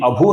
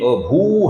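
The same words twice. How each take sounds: First: The final vowel is short. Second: The final vowel is long. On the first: The speaker calls it wrong. "ये अभू नहीं है" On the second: The speaker calls it right. "भू है ये दीर्घ है"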